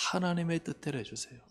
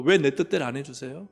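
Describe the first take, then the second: First: Soft, yielding prayer with "하나님의" leaned on; gentle, surrendered plea; humble prayer. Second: A mildly pushy complaint at God; a hint of a spoiled believer demanding his way; demanding prayer. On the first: Shown as a demonstration. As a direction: quietly give the matter over to God. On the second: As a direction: press God with a rising "왜".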